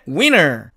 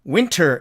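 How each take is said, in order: First: The t sound after n is dropped. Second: The t sound after n is clearly pronounced. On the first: "트가 사라져갖고" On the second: "사전식 발음은 당연히 winter"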